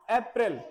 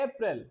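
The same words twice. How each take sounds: First: अप्रैल said the Hindi way, अप-रैल; wrong Hindi way. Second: अप्रैल said as English April, एप-रिल. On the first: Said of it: "अप्रैल नहीं बोलना इसे". (हिंदी वाला अप्रैल उच्चारण) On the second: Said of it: "क्या बोलना है?". (अंग्रेज़ी वाला सही उच्चारण) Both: Shown as a demonstration.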